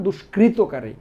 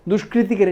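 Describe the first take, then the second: First: Says দুষ্কৃতকারী with no ি after কৃ, dush-krit-ka-ri; দুষ্কৃতকারী as dush-krit-ka-ri, the corrected version; right version, দুষ্কৃতকারী with no ti syllable; correct form. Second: Says দুষ্কৃতিকারী with an extra ি after কৃ, dush-kri-ti-ka-ri; দুষ্কৃতিকারী with the ti syllable, as the mistake to avoid; wrong version, দুষ্কৃতিকারী spoken dush-kri-ti-ka-ri; wrong form. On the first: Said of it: "সঠিক বানান দুষ্কৃতকারী". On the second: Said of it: "এটা ভুল". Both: Shown as a demonstration.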